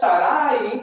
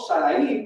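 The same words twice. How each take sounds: First: The last a is stressed, split from the i. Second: The final i is stressed as its own syllable. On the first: "no es Sarai, porque no tiene acento en la última A" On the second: "no Sarai, porque no tiene acento en la I"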